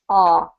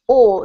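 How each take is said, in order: First: The vowel is an open American 'ah'. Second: The vowel is a rounded British 'aw'. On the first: "American accent is ah, correct" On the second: "in British accent, it's pronounced awe"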